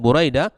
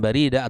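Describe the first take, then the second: First: The first syllable has a 'u' vowel. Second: The first syllable has an 'a' vowel. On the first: The speaker calls it right. "bidhammi awalihi, dibaca Buraidah" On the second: The speaker calls it wrong. "bukan Barida"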